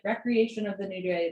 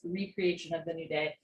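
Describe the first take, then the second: First: It is pronounced like the everyday leisure word. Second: It is pronounced as re-creation, creating anew. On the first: It means leisure or relaxation. "we often pronounce it recreation, right? Like yoga, a recreational sport" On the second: It means creating something again. "in this particular song, it's pronounced recreation"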